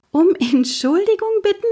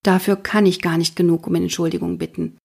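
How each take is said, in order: First: Put-on a girl bursting out in amazement; blurted disbelief. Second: Said in the usual way. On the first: Mathilda echoes the detective's apology in high surprise. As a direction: echo it much higher, astonished. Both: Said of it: "entfährt es mir".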